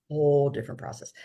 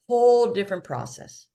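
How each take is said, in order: First: Fast, softer repeat of "Whole different process"; quick quiet echo. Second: WHOLE said louder and higher; emphatic first take. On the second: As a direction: punch WHOLE hard in "Whole different process". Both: Shown as a demonstration.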